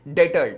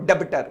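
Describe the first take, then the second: First: No b sound is pronounced in the middle. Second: A b sound is pronounced in the middle. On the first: The speaker calls it right. "बी silent है, this is called डेटर" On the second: The speaker calls it wrong. "डेबिटर नहीं, डेबिटर नहीं है"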